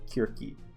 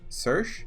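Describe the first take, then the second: First: The name begins with a K sound. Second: The name begins with an S sound. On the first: "that's the Greek way of saying it" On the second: "in a more American way of saying it"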